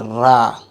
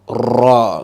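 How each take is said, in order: First: The r sound is light and thin. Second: The r sound is heavy and full-mouthed. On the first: The speaker calls it wrong. "Stop saying ra" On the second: The speaker calls it right. "make it in full mouth"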